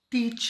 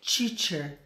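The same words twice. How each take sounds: First: The first t is a plain English t. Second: The first t sounds like a Portuguese ch. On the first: The speaker calls it right. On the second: The speaker calls it wrong.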